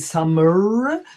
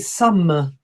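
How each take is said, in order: First: The final r is rolled. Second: The final r is not rolled. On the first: The speaker calls it wrong. "We don't say summer" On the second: The speaker calls it right. "we say summer, We actually make it a little bit longer"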